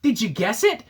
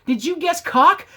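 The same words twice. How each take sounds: First: Said in the usual way. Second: Higher, louder gameshow reveal on "cock"; spring the answer like a host; mock quiz host reveal.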